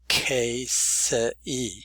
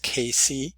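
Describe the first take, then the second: First: Each written letter is sounded out in the name. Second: The name is said with its ordinary pronunciation. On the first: "to show that the E is there and also that the C is a hard C" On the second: "in regular pronunciation"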